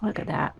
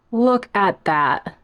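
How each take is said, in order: First: "Look at that" said softly, admiring. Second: "Look at that" drawn out slow; slow admiring. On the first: Admiring the plant for viewers, softly. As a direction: murmur it to yourself. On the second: Showing off the plant to viewers, slow and savouring. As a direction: savour each word. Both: Shown as a demonstration.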